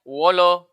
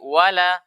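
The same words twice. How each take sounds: First: The l sound is thick and heavy. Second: The l sound is thin and light. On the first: The speaker calls it wrong. "tidak boleh kita baca wala" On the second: The speaker calls it right. "dibaca dengan tipis"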